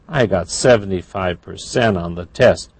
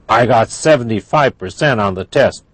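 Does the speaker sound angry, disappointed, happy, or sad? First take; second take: disappointed; angry. First: It is said in a disappointed tone. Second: It is said in an angry tone. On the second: "That's angry"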